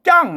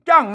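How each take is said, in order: The two takes are said the same way.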